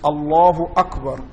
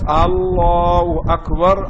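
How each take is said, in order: First: The vowels are kept at normal length. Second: A vowel is drawn out too long. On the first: The speaker calls it right. "it is Allahu Akbar" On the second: The speaker calls it wrong. "not Allahu Akbar"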